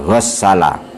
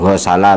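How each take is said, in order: First: The middle s sound is doubled and held. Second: The middle s sound is short and light. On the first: The speaker calls it wrong. "bukan ghassala" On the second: The speaker calls it right. "ghasala itu dibaca ringan"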